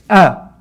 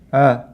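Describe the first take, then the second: First: The vowel starts with a sharp glottal catch. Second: The vowel starts softly without a catch. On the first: The speaker calls it right. "make sure that you're closing the vocal cords completely" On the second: The speaker calls it wrong. "if you don't close the vocal cords completely, what happens is you'll say uh"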